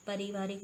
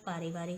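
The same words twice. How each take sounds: First: पारिवारिक with short first a, parivarik; wrong pronunciation. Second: पारिवारिक with long first aa, paarivarik; correct pronunciation. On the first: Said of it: "नहीं होता". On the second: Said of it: "होता है". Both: Shown as a demonstration.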